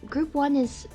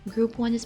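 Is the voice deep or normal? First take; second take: normal; deep. First: It is said in the speaker's normal voice. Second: It is said in a put-on deep voice. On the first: The speaker calls it wrong. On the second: The speaker calls it right.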